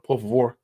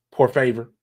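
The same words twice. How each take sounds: First: Said in the usual way. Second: "favor" said like English "FAY-ver"; "favor" rhymed with English "waver"; anglicised mispronunciation. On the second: Pretend. Playfully anglicised repeat.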